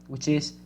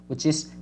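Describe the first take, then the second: The two takes are said the same way.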